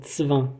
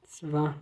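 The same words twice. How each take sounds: First: Zwan with ts onset; German Zw. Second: Zwan said tsvan; German Zw. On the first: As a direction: repeat Zwan softly. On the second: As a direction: model Zwan quietly. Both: Shown as a demonstration. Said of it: "A gente tem esse som".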